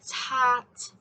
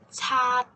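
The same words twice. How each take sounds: First: The final t is released with strong airflow. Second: The final t is held back, with no release. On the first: "pronounce with a very strong T sound" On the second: "don't let the strong airflow out at the end"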